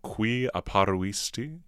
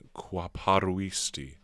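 First: Both touching vowels are pronounced separately. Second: The touching vowels merge, one vowel disappears. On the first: "So we go from qui apparuisti" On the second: "to simply qua paruisti"

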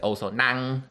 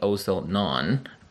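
First: Known ends in an ang-like vowel. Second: Known ends in a rounded oh vowel. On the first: "my Chinese sound just came out. I said also Nang" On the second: "Instead of saying also known"

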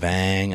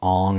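First: The vowel sounds like the one in 'bang'. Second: The vowel sounds like the one in 'long'. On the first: The speaker calls it right. "it's Aang" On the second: The speaker calls it wrong. "calling him Ong instead of Aang"

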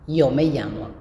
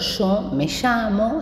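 First: The y and ll sound as in Mendoza. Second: The y and ll sound as in Patagonia.

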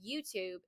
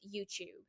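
First: The word is said with an American accent. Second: The word is said with a British accent. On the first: "instead of saying YouTube" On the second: "So for a British accent"

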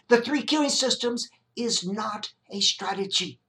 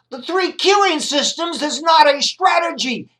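First: It is said at normal volume. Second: It is said louder.

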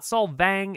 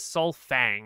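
First: The consonant after 'Sol' is a v sound. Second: The consonant after 'Sol' is an f sound. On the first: This is the outsiders' name for the place. The speaker calls it wrong. "It's the foreign pronunciation" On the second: This is the locals' own name for the place. The speaker calls it right. "It is like Sunfang"

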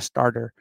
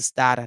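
First: The r sounds are clearly pronounced. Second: The r sounds are dropped, Boston style. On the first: The speaker calls it wrong. "not a starter" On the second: The speaker calls it right. "There's no ARs. We don't pronounce that here in Massachusetts"

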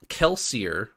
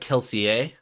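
First: The name has a plain English ending. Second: The name has a French-style ending.

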